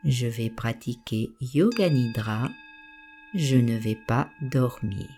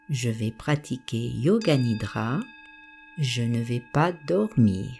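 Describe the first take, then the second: No difference in how they are said.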